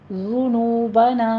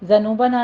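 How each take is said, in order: First: The first vowel is a rounded 'u'. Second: The first vowel is an open unrounded 'a'. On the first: The speaker calls it right. "होंठों को आपने गोल ही रखना है" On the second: The speaker calls it wrong. "ज़नूबना नहीं है"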